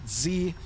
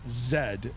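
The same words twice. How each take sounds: First: The letter is said as 'zee'. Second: The letter is said as 'zed'. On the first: This is how Americans say the letter. "for my American friends down south, they pronounce it Z" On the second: This is how Canadians say the letter. "that's how we pronounce the letter Z. We pronounce it Z"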